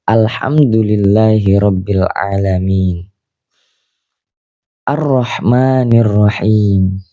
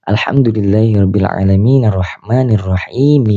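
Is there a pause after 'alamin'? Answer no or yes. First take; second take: yes; no. First: There is a pause after 'alamin'. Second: It runs on without a pause after 'alamin'. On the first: The reader stops at the verse end. "Di situ kita boleh berhenti" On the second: The reader continues without stopping. "Kalau lanjut gimana?"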